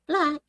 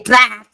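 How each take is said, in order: First: The word is said lightly and softly. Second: The word is said hard and forcefully. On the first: The speaker calls it right. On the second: The speaker calls it wrong. "like too strong"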